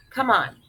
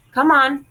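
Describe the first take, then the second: First: Said in the usual way. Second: Urgent call. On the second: Acted. Frida pulling off Piccola's pants.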